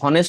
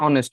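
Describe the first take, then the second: First: The word begins with an h sound. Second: The word begins with a vowel sound. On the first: The speaker calls it wrong. "একে কি হনেস্ট বলি না অনেস্ট বলি?" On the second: The speaker calls it right. "অনেস্ট, হ্যাঁ।"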